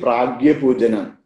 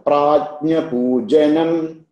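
First: The cluster is said as g plus y. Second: The cluster is said as j plus ny. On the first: The speaker calls it wrong. "Sometimes, you know, they say pragya pujanam" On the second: The speaker calls it right. "Jnya is actually ja plus nya"

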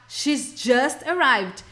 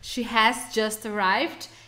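First: The word has is contracted to an s sound. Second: The word has is said in full.

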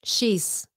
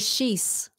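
Both takes have the same delivery.

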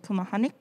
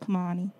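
First: The name ends with a k sound. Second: The name ends without a k sound. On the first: The speaker calls it wrong. "a lot of people kind of get it wrong and they say Kumehanik because of the K at the end" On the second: The speaker calls it right. "the way you say my name is Kumehani"

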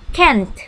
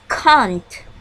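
First: It is said in an American accent. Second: It is said in a British accent. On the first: "Hampir sama bunyinya dalam American pronunciation" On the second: "This is British pronunciation"

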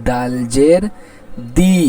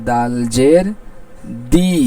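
The two takes are said the same way.

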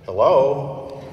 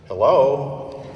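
First: It is said in a witheringly ironic voice. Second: The same.

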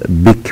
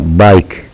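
First: The vowel is short, as in 'bick'. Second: The vowel is long, like 'eye'. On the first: The speaker calls it wrong. "لا نقول بيك" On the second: The speaker calls it right. "وإنما بايك"

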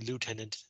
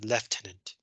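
First: It is said with the American pronunciation. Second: It is said with a non-American pronunciation. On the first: "American English, we say lieutenant" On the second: "They say lieutenant"

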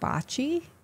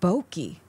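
First: The word is said like the Italian game bocce. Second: The word is said like the photography term bokeh. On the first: This is the usual pronunciation. The speaker calls it right. "You mean bocce?" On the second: The word was mispronounced. The speaker calls it wrong. "he called it really something really weird"

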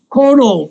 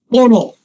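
First: The word begins with a voiceless k sound. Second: The word begins with a voiced g sound. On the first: The word stands alone. "它有两个读音Koro 跟Koro" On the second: The word is part of a compound. "我们有时候会变成Goro"

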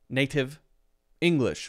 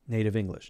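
First: The words are separated with a choppy break. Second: The words flow together without any break. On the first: The speaker calls it wrong. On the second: The speaker calls it right.

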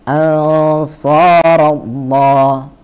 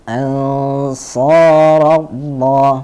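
No difference in how they are said.

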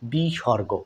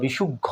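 First: The word is said as one unit, bisorgo. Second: The middle sounds like shuk, then gho. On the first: The speaker calls it right. "সঠিক উচ্চারণটা" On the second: The speaker calls it wrong. "অনেক সময় ভুলভালভাবে শিখে থাকি"

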